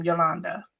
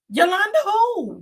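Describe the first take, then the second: First: Said in the usual way. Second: Yolanda in a high-pitched Hispanic accent. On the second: Shown as a demonstration. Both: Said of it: "put that Hispanic accent on Yolanda".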